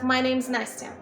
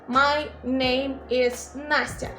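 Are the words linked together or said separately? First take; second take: linked; separately. First: The words run together smoothly without breaks. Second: Each word is said separately, with breaks. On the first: It sounds like a native speaker. The speaker calls it right. "native speakers tend to connect or link the words" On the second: It sounds like a non-native speaker. The speaker calls it wrong. "pronounce all the words separately"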